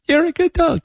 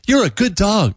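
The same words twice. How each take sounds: First: It is said in a higher-pitched voice. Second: It is said in a less high-pitched voice.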